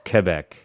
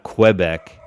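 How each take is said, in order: First: The word begins with a plain k sound. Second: The word begins with a kw sound. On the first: The speaker calls it right. "the U is almost silent" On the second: The speaker calls it wrong. "It's not Quebec"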